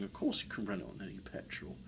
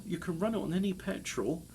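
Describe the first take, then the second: First: Softer, lower, fast throwaway; lower, softer fast repeat to yourself; quiet aside. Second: Said in the usual way. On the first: Real, not acted. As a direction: mutter it to yourself quickly.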